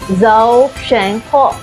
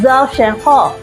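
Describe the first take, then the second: First: It is said at a normal, careful pace. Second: It is said quickly.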